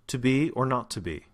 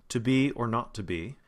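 No difference in how they are said.

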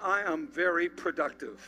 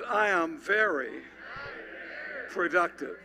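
First: It is said plainly, without special conviction. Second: It is said forcefully, with real conviction.

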